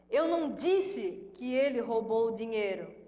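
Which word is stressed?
Eu. The stress is on "Eu".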